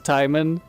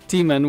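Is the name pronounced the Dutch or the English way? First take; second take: English; Dutch. First: The name is pronounced the English way. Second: The name is pronounced the Dutch way. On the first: "the English pronunciation" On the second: "which is like the Dutch pronunciation"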